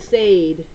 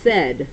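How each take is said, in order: First: The vowel is a long A, as in 'day'. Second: The vowel is a short E, as in 'bed'. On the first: The speaker calls it wrong. "We should read it Sade" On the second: The speaker calls it right. "it's actually pronounced like this. Said. With a short E"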